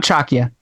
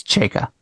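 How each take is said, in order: First: "Chakya" said as CHAK-ya, y after k; wrong pronunciation. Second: "Chayka" said as CHAY-ka; correct pronunciation. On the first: Correcting cohost on a name, "Chakya" said wrongly as CHAK-ya. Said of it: "You misled me on the pronunciation". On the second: Correcting cohost on a name, "Chayka" said rightly as CHAY-ka. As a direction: give "Chayka" a long ay, then ka. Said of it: "It's not Chakya". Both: Shown as a demonstration.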